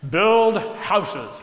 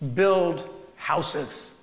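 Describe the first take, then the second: First: It is said in a put-on, godlike voice. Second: It is said in the speaker's plain voice.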